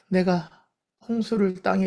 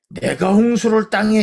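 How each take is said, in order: First: It follows a sigh, with the breath dropped. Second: It is read plainly, without a sigh first. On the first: It carries God's sorrowful heart. The speaker calls it right. "한숨을 먼저 한번 딱 쉬어야 돼. 이렇게 딱 호흡을 떨어뜨리고" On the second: It carries the reader's own feeling. The speaker calls it wrong. "이거는 내 기분이야. 내 기분, 내 느낌이고"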